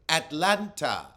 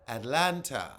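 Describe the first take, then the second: First: The middle T sound is clearly pronounced. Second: The middle T sound is clearly pronounced.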